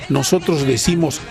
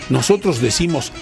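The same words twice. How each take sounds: No difference in how they are said.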